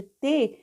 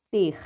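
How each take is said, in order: First: "T" said as te, ending on the bare vowel; "T" as te, vowel left open; open syllable, no R. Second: "ter" closed with a guttural R; "ter" with a rasped final R; throat-scraping R. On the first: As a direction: say "T" as te with no throat sound. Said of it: "Ao invés de T". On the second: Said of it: "um som de raspar a garganta". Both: Shown as a demonstration.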